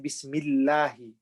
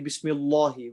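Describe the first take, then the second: First: The sound is light, with a flat mouth. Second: The sound is heavy, with a full mouth. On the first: The speaker calls it right. "Empty mouth. Our mouth is flat" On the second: The speaker calls it wrong. "We don't say Bismillahi"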